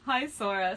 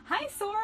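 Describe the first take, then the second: First: Said in the usual way. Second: Very high little squeak. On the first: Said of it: "squeaked Kairi in delight". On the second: A narrator's reading. Girl greeting a boy in delight, squeaked. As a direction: squeak it like an excited mouse. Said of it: "squeaked Kylie".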